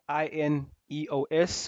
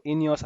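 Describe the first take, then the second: First: I N E O S said letter by letter; spelled out. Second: Ineos run together as one name; said as a word. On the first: Host unsure how the company is said, spelling out I N E O S. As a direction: spell out I N E O S, one letter at a time. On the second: Host unsure how the company is said, trying Ineos as one word. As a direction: say Ineos as a single word, not as letters. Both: Real, not acted. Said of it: "I don't know how you say it".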